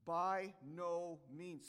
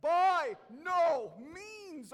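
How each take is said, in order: First: Slow, deliberate by no means; emphatic. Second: Slow, loud, high shout of "By no means"; louder. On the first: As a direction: say "By no means" slowly, each word weighted. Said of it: "Say that with me". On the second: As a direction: belt "By no means" out slowly, much louder and higher. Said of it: "Say it louder". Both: Shown as a demonstration.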